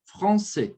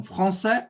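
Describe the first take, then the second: First: "français" ending on a closed "é"; closed final vowel. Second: "français" ending on an open "è"; open final vowel. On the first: Teacher comparing both correct options, closed "français". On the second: Teacher comparing both correct options, open "français". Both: Shown as a demonstration. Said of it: "os dois estão corretos".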